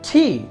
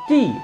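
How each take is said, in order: First: The t is released with a puff of air. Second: The t is plain, without a puff of air. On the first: This is how British speakers say it. The speaker calls it right. "ব্রিটিশরা এটাকে বলে টি" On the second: This is how local speakers usually say it. The speaker calls it wrong. "আমরা কিন্তু সচরাচর এটাকে টি বলে থাকি"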